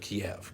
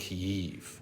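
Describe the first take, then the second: First: The name is said the Russian way. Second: The name is said the Ukrainian way. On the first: It nods to the Russians. The speaker calls it wrong. "Kiev is a nod to the Russians" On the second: It follows the local Ukrainian usage. The speaker calls it right. "the Ukrainian spelling and pronunciation"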